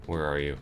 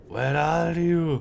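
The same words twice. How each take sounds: First: Said in the usual way. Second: High, slow, drawn-out where are you; playful high sing-song calling. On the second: Pretend. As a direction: call out like hide and seek.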